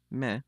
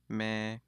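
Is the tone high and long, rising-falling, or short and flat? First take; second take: rising-falling; high long. First: The vowel is short, rising then falling. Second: The vowel is long, high and level. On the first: "the short, rising, falling tone" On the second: "the long, high, flat tone"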